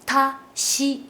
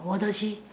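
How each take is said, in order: First: The middle consonant is a voiceless 't'. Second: The middle consonant is a voiced 'd'. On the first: The speaker calls it right. "입을 세 번 움직여" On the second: The speaker calls it wrong. "이렇게 하면 발음이 되게 하기 쉽거든요"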